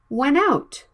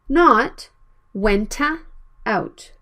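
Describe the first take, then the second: First: The two words blend together smoothly. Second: A small extra vowel separates the words. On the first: The speaker calls it right. "Consonant and vowel blended" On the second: The speaker calls it wrong.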